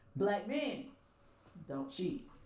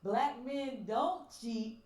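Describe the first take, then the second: First: There is a pause after 'men'. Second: It is said straight through without a pause. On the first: It tells the men not to cheat. "is totally different" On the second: It states that these men never cheat.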